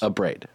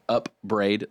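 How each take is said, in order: First: The two syllables run together as one word. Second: The two syllables are split apart like separate words. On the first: The speaker calls it right. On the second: The speaker calls it wrong. "That's two words"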